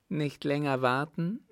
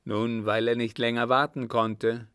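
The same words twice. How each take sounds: First: Astonished echo, pitched higher; rising question of surprise. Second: Said in the usual way. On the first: A narrator's reading. Rallion echoes the innkeeper's words, astonished. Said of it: "klang es erstaunt".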